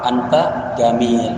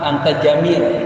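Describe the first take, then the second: First: The word jamil is said with a hard g. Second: The word jamil is said with a j sound. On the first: This is the colloquial Egyptian form. "Berubah anta jamil" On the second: This is the standard Arabic form. "Jim jadi ga"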